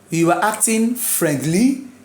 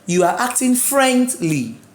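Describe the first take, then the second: First: The stress is on the second syllable. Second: The stress is on the first syllable. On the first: The speaker calls it wrong. "which is wrong" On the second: The speaker calls it right. "The stress should be on the first name, which is friend"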